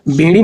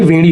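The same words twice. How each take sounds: First: बेड़ी with initial b; wrong b sound. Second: वेड़ी with initial v; correct v sound. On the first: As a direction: open बेड़ी on a b, as bay-ree. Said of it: "बेड़ी नहीं". (बेड़ी 'ब' से बोलें) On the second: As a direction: open वेड़ी on a v, as vay-ree. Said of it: "वेड़ी होता है". (वेड़ी 'व' से बोलें) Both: Shown as a demonstration.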